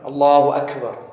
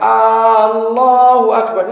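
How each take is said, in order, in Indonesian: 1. Diucapkan sebagai pernyataan biasa. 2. Diucapkan sehingga terdengar seperti pertanyaan. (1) "Artinya yang maha besar" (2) "ini justru bertanya, apakah Allah besar?"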